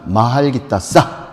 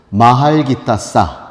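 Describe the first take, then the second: First: "마할 기타 싸" repeated slowly, leaning on "싸"; sounding out words. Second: "마할 기타 싸" said slowly and loudly, syllable by syllable; sounding out words. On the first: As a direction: spell out "마할 기타 싸" slowly, "싸" stressed. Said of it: "싸가 중요해요". ("싸"에 힘을 준 또박또박한 발음) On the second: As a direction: teach "마할 기타 싸" slowly, final "싸" hit hard. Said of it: "그냥 한번 따라해보세요". (천천히 또박또박 따라 하게 하는 발음) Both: Shown as a demonstration.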